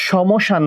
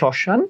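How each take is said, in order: First: The m sound is clearly pronounced. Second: The m is silent and the vowel nasalized. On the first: The speaker calls it wrong. "সমশান বলি না" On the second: The speaker calls it right. "আমরা বলি শ্মশান"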